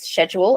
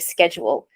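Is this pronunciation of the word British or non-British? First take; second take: British; non-British. First: It uses the British pronunciation of the word. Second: It uses a non-British pronunciation of the word. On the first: This is how someone else says it. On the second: This is how the speaker says it.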